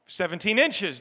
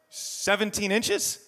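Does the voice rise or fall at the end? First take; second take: fall; rise. First: It falls at the end like a statement. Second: It rises at the end like a question.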